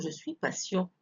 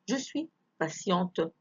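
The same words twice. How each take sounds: First: Patient ending on a nasal vowel, t silent; masculine ending. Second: Slow patiente with the final t sounded; feminine ending. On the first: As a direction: leave the final t of patient unspoken. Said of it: "لو كان ولد يقول". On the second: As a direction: release a clear t at the end of patiente. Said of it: "لو أقول أنا بنت". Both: Shown as a demonstration.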